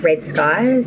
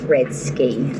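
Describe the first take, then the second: First: The name ends with a 'skies' sound. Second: The name ends with a 'ski' sound. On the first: The speaker calls it wrong. "Some people call me Red Skies" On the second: The speaker calls it right. "My name is pronounced Red Ski"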